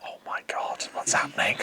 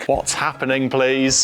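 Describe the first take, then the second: First: Breathy unvoiced whisper of disbelief. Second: Said in the usual way. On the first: Real, not acted. Whispering in shock at his teammate's answer. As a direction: hush it, stunned.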